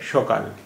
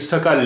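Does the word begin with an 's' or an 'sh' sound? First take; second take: sh; s. First: It begins with an 'sh' sound. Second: It begins with an 's' sound. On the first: "इसे हम सा को शा बोल रहे हैं, और हल्का सा ओ भी इसमें आ गया" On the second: "ये सकाल लिखा हुआ है"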